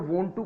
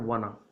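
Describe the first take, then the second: First: Both words are said fully and separately. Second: The words are blended into one short word.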